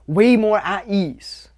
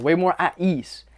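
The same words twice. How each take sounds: First: Drawn out, slow and easy; slow relaxed emphasis. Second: Said in the usual way. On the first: Shown as a demonstration. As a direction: stretch it out, calm and easy.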